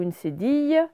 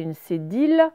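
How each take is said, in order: First: "cédille" said sé-deey; "cédille" rhyming with "fille", no L; correct ye sound. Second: "cédille" misread as sé-deel; "cédille" rhyming with "ville"; wrong L reading. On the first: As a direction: end "cédille" on a y glide. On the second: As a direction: say "cédille" with a final L. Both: Shown as a demonstration. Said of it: "c'est une cédille".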